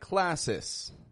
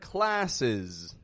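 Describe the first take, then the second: First: The ending is voiceless, like an s sound. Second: The ending is voiced, like a z sound. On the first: The speaker calls it wrong. "they'll say more like classes" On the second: The speaker calls it right. "Words like classes"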